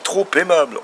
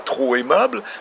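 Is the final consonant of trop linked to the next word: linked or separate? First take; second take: linked; separate. First: A linking consonant joins trop to aimable. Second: Trop and aimable are said without a linking consonant. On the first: The speaker calls it right. "On fait une liaison" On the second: The speaker calls it wrong. "on ne dit pas"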